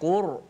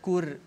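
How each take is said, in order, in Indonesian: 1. R diucapkan tebal dan berat. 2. R diucapkan tipis dan ringan. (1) "Ra tebal macam mana?" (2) "tak boleh. Kalau Qur jadi nipis"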